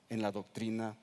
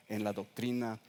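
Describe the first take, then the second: No difference in how they are said.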